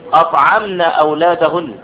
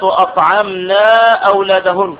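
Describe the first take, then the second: First: The vowel after the n is kept short. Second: The vowel after the n is drawn out long. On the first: The speaker calls it right. "النون مفتوحة" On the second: The speaker calls it wrong. "لا تقل الأمهات أطعمنا أولادهن، خطأ"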